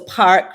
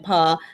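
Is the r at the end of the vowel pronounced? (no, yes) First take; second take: yes; no. First: The r after the vowel is pronounced. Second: The r after the vowel is dropped. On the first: "picking up this uh, Rothic pronunciation, so park" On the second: "rather than pa"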